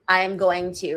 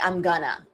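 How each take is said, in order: First: Each word is said separately and in full. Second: The words are blended together into a reduced form.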